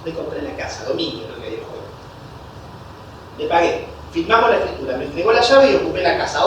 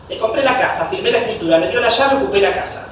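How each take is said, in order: First: Softer, lower run-through of the steps; quick recap. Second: Said in the usual way. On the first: Shown as a demonstration. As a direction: recap it under your breath. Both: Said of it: "Repito rápido".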